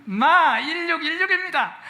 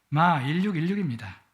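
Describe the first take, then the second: First: "마 일육일육입니다" in Gyeongsang dialect, much higher pitch, slow and louder; 경상도 사투리로 높고 느리게 "마 일육일육입니다". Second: Said in the usual way. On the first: Shown as a demonstration. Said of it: "경상도 사람들이 잘 말하는 경상도 말로". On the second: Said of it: "이렇게 대답하세요".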